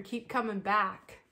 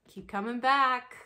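First: Drawn-out, sing-song keep coming back; stretched, syrupy mock recovery-slogan delivery; slow mock slogan. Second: Hammed-up group chant of the slogan; louder mock slogan. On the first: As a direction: drag out Keep coming back slowly and sweetly. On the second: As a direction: Keep coming back called out louder, falling on back.

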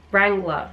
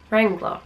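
First: Wrangler said the Australian way, no r at the end; ending "Wrangler" flat, wrang-gluh. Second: Wrangler tried with a hard r at the end, wrang-gler; an attempt at a non-Australian "Wrangler" with the r sounded; English Wrangler attempt. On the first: Vlogger repeating the brand name in her own Australian way, falling. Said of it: "I sound so Australian saying that". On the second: Vlogger trying to say the brand name in an English voice, falling. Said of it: "I can't say it in, like, an English voice". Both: Shown as a demonstration.

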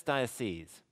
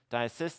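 First: Diocese with a long "seez" ending, tune falling; plural pronunciation. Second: Diocese with a short "sis" ending, tune rising; singular pronunciation. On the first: Teacher contrasting plural with singular for the class, plural pronunciation. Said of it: "it becomes diocese". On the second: Teacher contrasting singular with plural for the class, singular pronunciation. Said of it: "this is pronounced diocese". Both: Shown as a demonstration.

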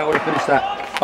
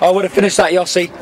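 First: Said in the usual way. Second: Called out. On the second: Real, not acted. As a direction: throw 'I would have finished that' at Yossi.

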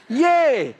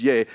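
First: "Yea" flung out high and loud like a cheer; hammed-up, much higher and louder yea; mock cheery yea. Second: Said in the usual way. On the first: Shown as a demonstration. The preacher mocking the King James yea as a loud cheer. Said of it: "Nobody says yea ... unless there's something broken in you". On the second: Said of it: "Nobody says yea".

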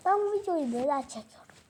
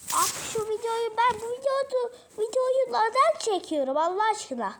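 First: Said in the usual way. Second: Higher, louder whiny complaint; exasperated whine. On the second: Real, not acted. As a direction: moan it up high in despair. Exasperated complaint about video.

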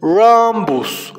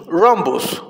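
First: "Rhombus" stretched out clearly; drawn-out model to repeat. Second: Said in the usual way. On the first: Shown as a demonstration. Teacher asking children to repeat "Rhombus", slowly drawn out. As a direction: draw out "Rhombus" for learners to echo. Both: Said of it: "Repitan después de mí".

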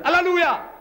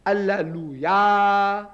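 First: High, loud mock cry of praise; crowd exclaiming. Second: Alleluia very drawn out, ending on a long held "ya"; syllable-by-syllable demonstration. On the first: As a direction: burst out like an excited congregation. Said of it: "so everybody exclaims". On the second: Shown as a demonstration. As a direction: stretch Alleluia slowly to expose the final "ya". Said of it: "Ya is a vocative".

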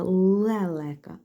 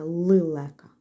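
First: Лелека drawn out slowly, each е clear; slow careful pronunciation. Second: Лилека with и sounds, said as the wrong form; wrong spelling sounded out. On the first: Teacher slowly sounds out лелека for pupils. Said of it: "а не «лилека»". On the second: Teacher sounds out the misspelling лилека. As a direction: say лилека with clear и vowels as the mistake. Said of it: "а не". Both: Shown as a demonstration.

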